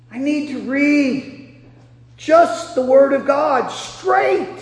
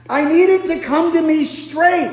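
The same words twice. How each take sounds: First: Slow, each word weighed, "straight" leaned on; slow deliberate emphasis. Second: Said in the usual way. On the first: Shown as a demonstration. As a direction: spell it out slowly, landing on "straight".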